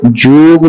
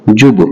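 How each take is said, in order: First: जूब with a long oo, shown as the wrong way; wrong long vowel. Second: जुब with a short u, the correct way; correct short vowel. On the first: Teacher warning students off the wrong reading, a long oo. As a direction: draw out जूब as a long joob. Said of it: "नहीं पढ़ा जाएगा". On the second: Teacher showing students the right reading, a short u. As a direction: clip जुब short, a quick u. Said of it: "ये गलत है, ये सही है". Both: Shown as a demonstration.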